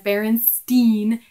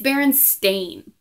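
First: The last syllable rhymes with 'fine'. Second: The last syllable rhymes with 'rain'. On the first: This is how people remember the name. "Everybody remembers Berenstain Bears as Berenstain, EIN" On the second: This is how the name appears on books and shows. "it's Berenstain. AIN"

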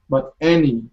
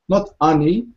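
First: The first vowel sounds like 'eh'. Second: The first vowel sounds like 'ah', as written. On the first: The speaker calls it right. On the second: The speaker calls it wrong.

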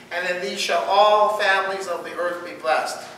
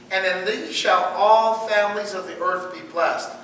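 Both takes have the same delivery.

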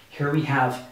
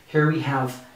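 The two takes are said the same way.

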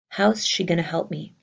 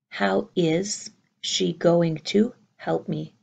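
First: The words are contracted and reduced together. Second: Every word is said fully and separately. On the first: "I hope you hear the gonna" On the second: "has to be is"

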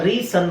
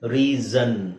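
First: The middle consonant is a hissing s sound. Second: The middle consonant is a buzzing z sound. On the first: The speaker calls it wrong. "ರೀ ಸನ್ ಆಗುತ್ತಾ, ಇಲ್ಲ" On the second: The speaker calls it right. "ಎಸ್ ಇರೋದನ್ನ ಅದನ್ನ ನಾವು ಝೆಡ್ ಅಂತ ಉಚ್ಚಾರಣೆ ಮಾಡಬೇಕು"

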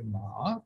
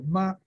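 First: The pitch dips low, then rises. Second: The pitch stays high and level. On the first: "ma che è un terzo tono" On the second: "ma che è un primo tono"

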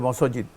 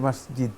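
First: The word has a northern Bangladeshi regional pronunciation. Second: The word has the standard pronunciation. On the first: The speaker calls it wrong. "উত্তরাঞ্চলে বাংলাদেশের তারা বলে মসজিদ" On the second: The speaker calls it right. "সঠিক উচ্চারণ হচ্ছে মসজিদ"

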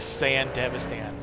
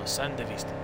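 First: It is said as two parts, Sand Devastan. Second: It is said as one word, Sandevisten. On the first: This is the English dub's version. "we accidentally heard them say it in the English dub" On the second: This is the Japanese version's form. "they pronounce it Sandevisten"

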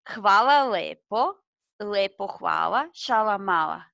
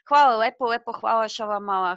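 First: It is said at a slower pace. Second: It is said at a faster pace.

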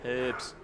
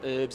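First: The word starts with an audible H. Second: The word starts with a vowel, no H. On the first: The speaker calls it right. "You gotta pronounce the H" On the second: The speaker calls it wrong. "It's not herbs"

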